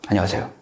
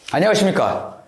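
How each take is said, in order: First: It is said quietly and toned down. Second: It is said loudly and theatrically.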